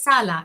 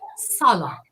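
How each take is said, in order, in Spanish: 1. El sonido de la s es plano y claro. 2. El sonido de la s es oscuro y enfático. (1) "no es sala" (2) "es sala. Es más oscura la palabra"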